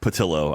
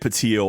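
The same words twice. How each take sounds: First: The double L is said as an L sound. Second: The double L is said as a Y sound. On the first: The speaker calls it right. "You nailed it" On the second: The speaker calls it wrong. "People see the double L, they think tortilla"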